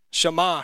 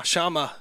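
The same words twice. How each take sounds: First: Shammah as shuh-MAH, weight on the end; stress on second syllable. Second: Shammah in a southern accent, as SHAH-muh; southern-accented Shammah, stress up front. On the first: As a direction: say Shammah with a long final AH. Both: Shown as a demonstration. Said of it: "That's my southern accent coming out".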